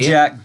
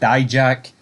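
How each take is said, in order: First: The first syllable sounds like 'dee'. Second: The first syllable sounds like 'die'. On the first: "There's two ways to say it" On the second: "There's two ways to say it"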